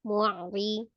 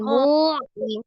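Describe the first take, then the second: First: The 'mu' vowel is short before a tight catch. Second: The 'mu' vowel is drawn out before 'ri'. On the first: The speaker calls it right. "jangan dhammahnya yang dipanjangkan, tapi ainnya yang ditawasudkan" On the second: The speaker calls it wrong. "Jadi bukan mu'ri"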